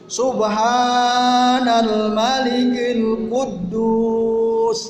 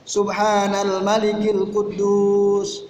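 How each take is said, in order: First: It is said louder and drawn out. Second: It is said at normal loudness and length.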